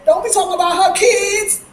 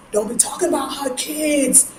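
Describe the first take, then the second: First: "her" punched higher and louder; stress on her. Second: Said in the usual way. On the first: Retold or imitated. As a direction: lean hard on "her" like a protective mother.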